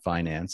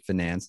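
First: The word is said the plainer, ordinary way. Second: The word is said the fancier, sophisticated way. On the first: The speaker sounds less sophisticated. The speaker calls it wrong. "not finance" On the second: The speaker sounds more sophisticated and earns more. The speaker calls it right. "They used to say finance"

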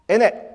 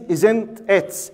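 First: The t sounds are dropped and the words run together. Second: The t sounds are clearly pronounced in each word. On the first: "every D and T is like Hamza. They don't pronounce it" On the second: "he means"

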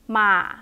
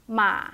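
First: The pitch is short and low. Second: The same.

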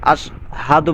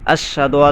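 First: A strong breathy h is heard in the middle. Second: The h sound in the middle is dropped. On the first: The speaker calls it right. "বলতে হবে বড় হা" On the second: The speaker calls it wrong. "হাটাকে বাদ দিয়ে দেয়"

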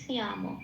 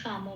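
First: There is a clear y glide after the first consonant. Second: There is no y glide after the first consonant. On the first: This is the Sanskrit pronunciation. "ওখানে একটা বলতে হবে সিয়াম" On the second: This is the everyday Bengali pronunciation. "আমরা যেরকম বাংলায় শ্যাম বলি"

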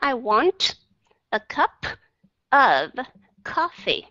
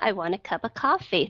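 First: Each word is said separately and clearly. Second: The words are linked smoothly in one breath.

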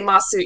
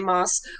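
First: The final u vowel is clearly pronounced. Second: The final u vowel is dropped. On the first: The speaker calls it wrong. "You don't say masu" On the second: The speaker calls it right. "you say mas"

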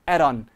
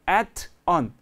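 First: The t is a quick flap, like r. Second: The t is a clear t sound. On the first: "t를 real처럼 발음하면 at on" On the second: "at on 합치면"

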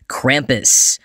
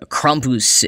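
First: The name has an anglicized, English-style pronunciation. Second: The name has a more native, German-style pronunciation. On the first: The speaker calls it wrong. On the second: The speaker calls it right.

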